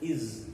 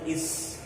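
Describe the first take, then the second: First: The final consonant is a buzzing Z sound. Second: The final consonant is a hissing S sound. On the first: The speaker calls it right. "we pronounce it as is. S is pronounced as the" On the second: The speaker calls it wrong. "We don't pronounce it as is"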